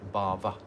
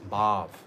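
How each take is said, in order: First: The final A is accented. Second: The final A is not accented. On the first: It means material existence. The speaker calls it wrong. "people say this wrong pronunciation" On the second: It means spiritual emotion. The speaker calls it right. "doesn't have an accent on the A"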